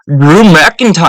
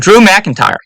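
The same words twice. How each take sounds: First: It is said in a put-on Scottish accent. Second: It is said in the speaker's usual accent.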